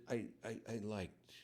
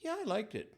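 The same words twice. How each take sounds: First: Halting, stammered and softer; hesitant reply. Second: Lukewarm reply. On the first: Preacher acting out a lukewarm friend, hesitant. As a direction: hold back, unsure how much to admit. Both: Shown as a demonstration. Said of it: "And you said".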